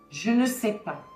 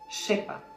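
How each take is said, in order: First: The word ne is clearly pronounced. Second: The word ne is left out entirely. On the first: This is the textbook form. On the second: This is how people really speak.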